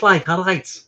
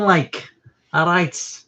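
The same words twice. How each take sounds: First: "like, all right" said the Scouse way, a bit higher; announced Liverpool accent demo. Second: A quick Scouse-style "all right"; light Liverpool accent, a touch higher. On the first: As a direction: show how Liverpool people say "all right". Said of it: "they talk like this". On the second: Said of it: "Do you know what a Liverpool accent is?". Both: Shown as a demonstration.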